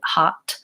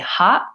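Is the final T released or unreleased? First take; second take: released; unreleased. First: The final T is released with a puff of air. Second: The final T is held without any release. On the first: The speaker calls it wrong. "releasing the T, letting the air come out" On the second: The speaker calls it right. "I say hot. I go up to make the T"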